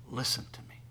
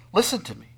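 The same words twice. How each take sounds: First: Hushed whisper of Listen to me; whispered plea. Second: Listen to me louder and higher, falling firmly; forceful command. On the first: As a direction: breathe Listen to me softly, intimately. God's words repeated, then shouted. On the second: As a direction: call out Listen to me with authority. Same words now forceful. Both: Acted.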